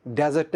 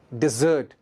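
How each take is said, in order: First: डेजर्ट as "DAZ-ert", open first vowel; wrong pronunciation. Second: डेजर्ट as "di-ZERT", weight on the second syllable; correct pronunciation. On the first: Teacher showing learners the mistake, डेजर्ट as "DAZ-ert". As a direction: say डेजर्ट like the sandy desert. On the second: Teacher modelling the sweet dish, डेजर्ट as "di-ZERT". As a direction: say डेजर्ट with short "di", long "zert". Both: Shown as a demonstration. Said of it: "डेजर्ट नहीं है".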